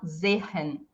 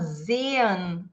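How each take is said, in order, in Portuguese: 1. O primeiro e não é prolongado. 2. O primeiro e é prolongado. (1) "e não sehen" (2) "A gente fala sehen"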